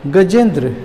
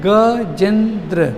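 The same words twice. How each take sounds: First: Said in the usual way. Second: "Gajendra" slowly, each syllable held apart; split into syllables. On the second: Shown as a demonstration. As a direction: break "Gajendra" into drawn-out beats for counting. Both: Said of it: "कई बार में बोलेंगे".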